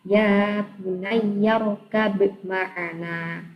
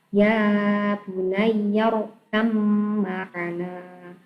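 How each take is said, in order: First: The b is pronounced before the m. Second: The b merges into a doubled m. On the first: "Tulisannya seperti itu" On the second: "tapi cara membacanya"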